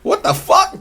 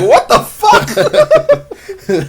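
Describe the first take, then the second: First: High-pitched incredulous outburst; short, high cry of disbelief; incredulous henchman. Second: Very high, stretched-out incredulous cry; comically prolonged shock; drawn-out disbelief. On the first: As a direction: squeak it out in disbelief. Henchman's startled reaction acted out. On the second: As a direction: drag it out slowly, way up high. Two-Face's baffled reaction acted out. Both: Acted.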